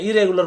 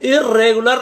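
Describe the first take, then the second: First: The r sound is pronounced only once. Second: The r sound is pronounced twice, doubled. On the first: The speaker calls it right. "इरेगुलर बोलते हैं" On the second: The speaker calls it wrong. "इरेगुलर नहीं बोलते हैं"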